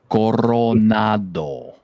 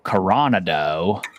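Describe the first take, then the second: First: The R is said with a roll. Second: The R is said without a roll. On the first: The speaker calls it right. "Roll the R" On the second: The speaker calls it wrong. "said the word that just made me just like literally cringe"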